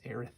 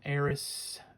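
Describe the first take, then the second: First: The name is said the modern way. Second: The name is said the speaker's first way. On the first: "The more modern pronunciation, or that maybe the correct pronunciation" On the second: "Eris, I said"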